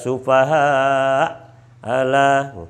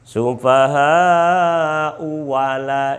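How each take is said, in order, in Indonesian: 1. Ada henti setelah kata pertama. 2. Kedua kata itu menyambung tanpa jeda. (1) "kalau berhenti" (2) "ini kalau diwasalkan"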